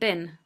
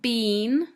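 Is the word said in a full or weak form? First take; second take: weak; full. First: The word is said in a weak, reduced form. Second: The word is said in its full, strong form. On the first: The speaker calls it right. "but been" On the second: The speaker calls it wrong. "Not been"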